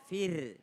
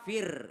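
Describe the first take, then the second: First: FIR with a light, thin r; light r at the end of FIR; correct thin r. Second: FIR with a heavy, thick r; wrong r demo. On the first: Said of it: "jadi bukan fir, ya, fir". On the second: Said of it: "jadi bukan fir". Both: Shown as a demonstration.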